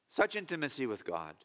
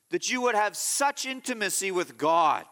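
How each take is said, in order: First: Tender repeat. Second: Said in the usual way. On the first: Real, not acted.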